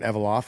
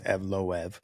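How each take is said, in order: First: The name is said as Evolov. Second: The name is said as Evloev. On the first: The speaker calls it wrong. "I was saying Evolov" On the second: The speaker calls it right. "no, it's Evloev"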